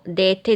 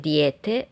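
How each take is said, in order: First: The first vowel is a plain e. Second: The first vowel is a gliding ije.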